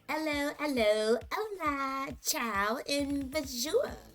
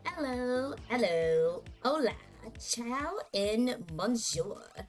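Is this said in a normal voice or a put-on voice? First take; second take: put-on voice; normal voice. First: It is said in an acted character voice. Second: It is said in the speaker's ordinary voice. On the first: "I'm gonna try and act what I think she sounds like" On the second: "I'm just gonna say this in my normal voice"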